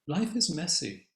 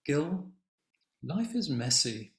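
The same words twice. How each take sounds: First: "Life" hit hardest and higher, "is messy" falling away; "Life is messy" stressed on "Life" with a falling close; emphasized quote. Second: "Gil" called a little higher and louder, then "life is messy" with the weight on "is"; a touch of the wife turning to her husband; wife's gentle quote. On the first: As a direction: punch "Life" as the turning word. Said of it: "she really sort of emphasized it". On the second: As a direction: quote the wife simply, leaning lightly on "is". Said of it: "And she says". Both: Retold or imitated.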